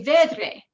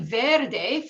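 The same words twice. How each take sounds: First: Vedre with the r moved after the d; vedre, not verde. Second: Said in the usual way. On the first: Shown as a demonstration. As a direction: say vedre, swapping the r and d. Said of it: "you say vedre". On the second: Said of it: "instead of saying verde".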